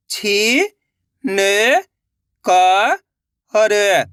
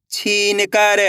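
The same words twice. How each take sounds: First: छी, न, क, र held, with gaps; syllable by syllable. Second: छीन कर joined in one go; blended word. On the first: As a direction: sound out छी, न, क, र one by one. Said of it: "एक एक अक्षर का उच्चारण करके". (छी, न, क, र अलग-अलग) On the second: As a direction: say छीन कर without breaks. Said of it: "तो मिलके बन जाएगा". (छीन कर मिलाकर) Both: Shown as a demonstration.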